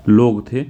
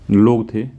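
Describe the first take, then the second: No difference in how they are said.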